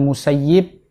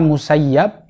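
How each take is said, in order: First: The last syllable has an 'ee' vowel. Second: The last syllable has an 'ah' vowel. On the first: This is how people of Medina say the name. "ini menurut bahasa panggilan orang-orang penduduk Madinah" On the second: This is how people of Iraq say the name. "Musayyab itu bagi orang-orang Irak"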